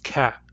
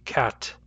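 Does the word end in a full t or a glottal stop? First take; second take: glottal stop; full t. First: The word ends with a glottal stop, no t. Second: The word ends with a clearly released t sound. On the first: "I pronounce them with a glottal stop instead of a T" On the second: "When I pronounce them carefully, they have a real T"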